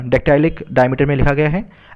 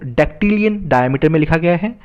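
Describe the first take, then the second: First: डेक्टाइलिक with a "tie-lik" ending; corrected term. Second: डेक्टिलियन with an "-ilian" ending; mispronounced term. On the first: Teacher correcting the metre's name to डेक्टाइलिक, said "dek-tie-lik". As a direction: say डेक्टाइलिक, middle rhyming with "tie". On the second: Teacher naming the poem's metre, slipping into डेक्टिलियन with "-ilian". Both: Real, not acted. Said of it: "sorry".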